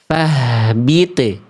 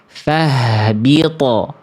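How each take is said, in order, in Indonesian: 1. T di akhir memantul dengan bunyi tipis. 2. T di akhir memantul dengan bunyi tebal. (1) "ini ketipisan" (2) "Bunyi yang tepat adalah yang B"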